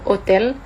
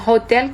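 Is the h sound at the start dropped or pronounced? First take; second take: dropped; pronounced. First: The opening h sound is dropped entirely. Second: The opening h sound is clearly pronounced. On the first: "kita bilang hotel" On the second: "Kita gak bilang hotel"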